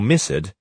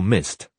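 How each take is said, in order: First: The ending is an extra 'id' syllable. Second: The ending adds no extra syllable. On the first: The speaker calls it wrong. "students generally say ed or id" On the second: The speaker calls it right. "the correct forms"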